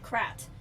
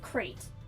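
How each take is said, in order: First: The vowel does not sound like 'crate'. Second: The vowel sounds like the one in 'crate'. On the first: It does not call up the image of boxes. "So I pronounce it Krat" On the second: It sounds like a wooden box. "Everyone pronounces it Crate"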